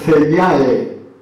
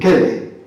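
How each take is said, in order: First: The word begins with a soft consonant sound. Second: The word begins with a hard k sound. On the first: This is how the word is said today. "nosotros lo pronunciamos así ahora" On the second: This is how the word was said in ancient times. "en aquel momento, en la época de la latinización ... se pronuncia"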